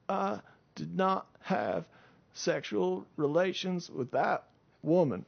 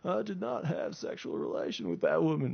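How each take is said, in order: First: It is said in an imitated, earnest voice. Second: It is said in a plain, generic voice. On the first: The speaker calls it right. "He said it a little more like" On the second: The speaker calls it wrong. "I know he didn't say it like that"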